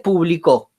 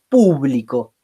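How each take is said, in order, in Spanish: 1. La tónica es la última sílaba. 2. La tónica es la primera sílaba. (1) "Y tiene como vocal tónica la O" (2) "Tiene como vocal tónica la primera U"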